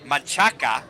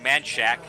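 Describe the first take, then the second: First: The name is pronounced in Spanish style. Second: The name is pronounced in anglicized English style. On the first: "which is the proper Spanish way to pronounce that name" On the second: "all the locals call it Manchac"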